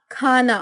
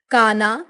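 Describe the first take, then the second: First: Said in the usual way. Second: Unaspirated K in काना; southern pronunciation. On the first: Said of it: "Hindi उच्चारण". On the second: Shown as a demonstration. Teacher showing South Indian speech, काना without aspiration. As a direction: start काना with plain क, not ख. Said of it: "दक्षिणी उच्चारण".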